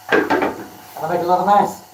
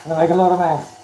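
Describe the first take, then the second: First: Slow, drawn-out playful line; playful emphasis. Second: Lot punched with a laugh; stress on lot. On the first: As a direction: tease it out slowly. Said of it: "laughs after repeating it". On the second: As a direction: hit the word lot. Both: Pretend.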